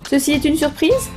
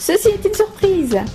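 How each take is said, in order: First: It is said as a rising question. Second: It is said as an excited exclamation.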